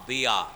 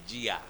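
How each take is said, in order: First: The word begins with a d sound. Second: The word begins with a j sound. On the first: This is the original Arabic pronunciation. "শব্দটা দাল, দিয়া" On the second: This is the Bengali form, unlike the Arabic. "বাংলাতে আমরা লিখছি জিয়া, আরবি উচ্চারণের সাথে মিল নেই"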